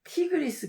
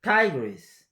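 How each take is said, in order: First: 티그리스 in even Korean syllables; Korean-style Tigris. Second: 타이그리스 with a stressed 타이 and quick ending; English Tigris. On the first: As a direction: read 티그리스 flatly. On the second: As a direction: punch 타이 in 타이그리스. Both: Shown as a demonstration. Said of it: "티그리스 강은 타이그리스".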